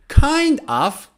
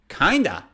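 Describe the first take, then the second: First: Both words are said fully and separately. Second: The two words blend into one reduced word.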